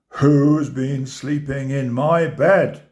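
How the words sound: It is roared in a big, deep voice. "he roared in his great big voice"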